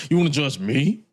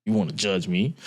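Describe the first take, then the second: First: Rising, affronted question; incredulous challenge. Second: Said in the usual way. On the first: Acted. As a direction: pitch climbing sharply on ME. Repeats the challenge, lower then higher.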